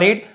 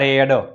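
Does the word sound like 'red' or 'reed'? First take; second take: reed; red. First: The vowel is long, rhyming with 'seed'. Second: The vowel is short, rhyming with 'bed'. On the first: It is the present form of the verb. "V1માં રીડ" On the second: It is the past or past participle form. "V2 V3માં રેડ"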